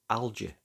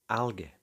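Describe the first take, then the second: First: The G is soft, like a J sound. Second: The G is hard, like in 'go'. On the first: This is how it is said in North America. "In North America, you'll hear a soft G" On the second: This is how it is often said in Britain. "in British English it's frequently a hard G"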